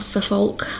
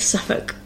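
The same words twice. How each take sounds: First: The ending is said like 'olk', with an L. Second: The ending is said like 'uk', without an L. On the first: The speaker calls it wrong. "it's not Suffolk" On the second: The speaker calls it right. "that's pronounced as this uk sound"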